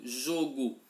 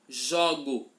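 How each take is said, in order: First: The first o is said with a closed sound. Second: The first o is said with an open sound. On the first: It is the noun meaning a game. "perceba que o som é fechado" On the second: It is the verb meaning I play. "se pronuncia de uma outra forma"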